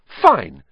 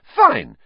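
First: Louder curt snap; curt anger. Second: Much higher, louder furious snap; repeated, furious. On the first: Hermione quitting the class, curt loud snap. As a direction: bite it off, done arguing. Hermione snaps before storming out. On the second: Hermione storming out, high loud furious. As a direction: fling it at the teacher. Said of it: "she repeated". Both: Acted.

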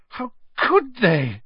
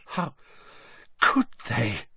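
First: Slow, much higher, breaking into a cry; high tearful wail. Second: Hermione choking back tears; catching in the throat, near crying; choked up. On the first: Hermione repeating it, rising to a tearful cry. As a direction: let it break into a sob. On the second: Hermione, horrified about Hagrid, choked and tearful. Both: A narrator's reading. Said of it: "she choked".

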